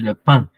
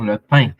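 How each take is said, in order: First: The vowel is said with a France French accent. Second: The vowel is said with a Quebec French accent. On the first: It is the form learners heard before. "ils ont entendu le pain" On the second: It is the local form learners now hear. "c'est la première fois qu'ils entendent euh, quelqu'un dire le pain"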